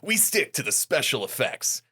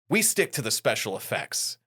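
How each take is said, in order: First: It is said in an imitated Kitamura voice. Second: It is said in the speaker's normal voice.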